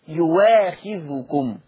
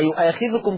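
First: A w sound comes before the long a. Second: A glottal stop comes before the long a. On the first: "يبقى أبدلت يواخذكم" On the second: "الهمزة مفتوح وقبلها ياء"

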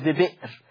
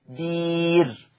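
First: It has a glottal stop in the middle. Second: It has a long ee vowel in the middle.

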